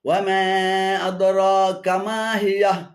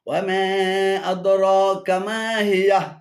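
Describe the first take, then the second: The two takes are said the same way.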